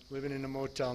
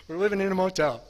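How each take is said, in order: First: Said in the usual way. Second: "motel" said higher and much louder, accusing; kids' loud complaint. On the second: Retold or imitated. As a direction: blurt it out like a resentful kid. Kids complaining about the motel.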